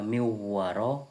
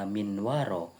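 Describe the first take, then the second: First: The n merges nasally into the following w. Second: The n is pronounced clearly before the w. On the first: The speaker calls it right. "kita harusnya membaca miwaro" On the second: The speaker calls it wrong. "kita membaca minwaro. Maka itu dinamakan kesalahan lahan khofi"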